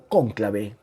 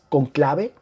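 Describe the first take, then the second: First: The stress is on the first syllable. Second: The stress is on the second syllable. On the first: "Con el acento en la, primer, en, la, en la O" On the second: "porque no me marca la tilde aquí"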